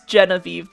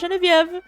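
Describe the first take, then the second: First: The name is pronounced the English way. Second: The name is pronounced the French way. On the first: "in English and Ge- it's Genevieve" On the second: "but I was raised French"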